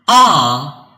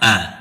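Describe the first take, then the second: First: The word is said in its full form. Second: The word is said in its reduced form. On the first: "in the strong form we pronounce are" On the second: "but in the weak form we pronounce a"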